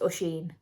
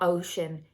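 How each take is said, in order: First: The name does not sound like ocean. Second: The name sounds like the English word ocean. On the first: The speaker calls it right. "it's Oisin" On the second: The speaker calls it wrong. "It's not Ocean"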